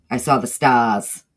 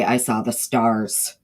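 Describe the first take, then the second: First: "stars" said "stahs" with the R dropped, a touch of a laugh; Northeastern accent. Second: "stars" said with the R kept, slow and drawn out; slow Southern "starz" with a full R; own Southern accent. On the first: To the chat, demoing the R-less Northeast way, Northeastern accent. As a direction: Northeastern "stahs", no R at the end, slowed. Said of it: "they don't pronounce their R's". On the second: To the chat, contrasting how she says it herself, Southern drawl. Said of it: "I say". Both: Shown as a demonstration.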